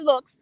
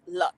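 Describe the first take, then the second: First: The name is said with the vowel of 'looks'. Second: The name is said with the vowel of 'luxury'. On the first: The speaker calls it wrong. "not looks" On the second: The speaker calls it right. "Lux, not looks, Lux"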